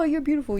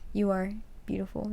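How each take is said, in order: First: It sounds casual and dismissive. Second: It sounds earnest and heartfelt.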